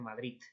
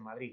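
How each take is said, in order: First: The final consonant is a t sound. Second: The final consonant is a d sound. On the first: The speaker calls it right. "la D final se pronuncia como T" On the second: The speaker calls it wrong. "no dicen Madrid"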